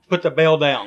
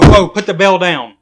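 First: Said in the usual way. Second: Loud, alarmed whoa, whoa; alarmed shout. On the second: Pretend. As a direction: yell to stop him. Stopping cohost ringing bell.

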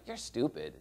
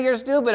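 First: Softer, dropped-away insult; muttered insult. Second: Higher, sharper insult thrown out; blurted insult. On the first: Preacher demoing an insult, softly muttered. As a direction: say it under your breath. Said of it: "Maybe I say something like". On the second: Preacher acting out an insult, blurted higher. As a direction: fling the words at them. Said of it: "And so you say". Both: Shown as a demonstration.

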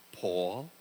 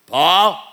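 First: Hushed, low "Paul?" rising softly in the dark; a mother quietly calling her son on the stairs at night; mother's gentle call. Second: Put-on loud, stern "Paul?" in a Bayside cabbie accent; father's cabbie accent. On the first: Retold or imitated. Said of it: "when I heard my mother say my name". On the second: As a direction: call "Paul?" like a gruff New York cabbie dad. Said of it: "he had that n-, cabbie accent type of thing".

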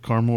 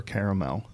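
First: "Caramel" as CAR-mul; two-syllable pronunciation. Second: "caramel" as CARE-uh-mel; three-syllable pronunciation. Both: Shown as a demonstration. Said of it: "How do they pronounce it?".

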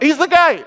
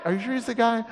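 First: High, emphatic exclamation; acted burst of conviction; confident proclamation. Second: Soft, unsure question; acted small-voiced doubt; doubtful questioning. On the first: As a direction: announce it with total certainty. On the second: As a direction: ask it quietly, losing confidence. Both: Acted certainty, then doubt.

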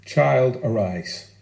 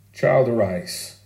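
First: Put-on a tender call to wake a sleeping child, low and hushed; Jesus' gentle command. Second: Put-on "Child" leaned on, "arise" falling, whole phrase slow; drawn out "Child, arise" with weight on "Child"; slow repeat. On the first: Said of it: "Jairus' daughter is raised with two words". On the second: Shown as a demonstration. Preacher repeating the words for the congregation: slow, stressed. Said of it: "It's what her mum would have said to her".

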